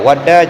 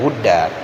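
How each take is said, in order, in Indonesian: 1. Vokal pertama adalah bunyi 'a' terbuka. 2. Vokal pertama adalah bunyi 'u' bulat. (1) "dibaca dengan fathah waw" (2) "dan dengan dhammahnya"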